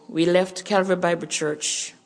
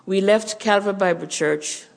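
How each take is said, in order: Both takes have the same delivery.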